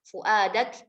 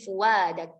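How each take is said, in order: First: A glottal stop is heard after the first vowel. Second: A w glide replaces the glottal stop.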